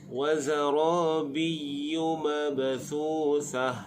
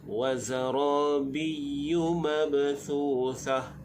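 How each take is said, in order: Both takes have the same delivery.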